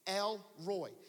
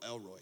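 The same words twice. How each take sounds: First: It is split into two separate words. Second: It is run together as one name. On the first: It is the divine title from scripture. The speaker calls it right. "El space Roy" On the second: It sounds like an ordinary personal name. The speaker calls it wrong. "not like your uncle El Roy"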